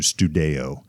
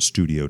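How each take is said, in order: First: The middle syllable sounds like 'day'. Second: The middle syllable sounds like 'dee'. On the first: A proposed new way to say the gym's name. "to Studeo, since we've done that with Rodeo Drive" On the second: The usual way the word is said. "changing the pronunciation from studio"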